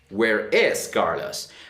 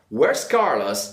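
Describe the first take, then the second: First: Where and is are two full separate words. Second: Where and is merge into one quick syllable. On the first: "Rather than saying" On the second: "It sounds faster and more natural"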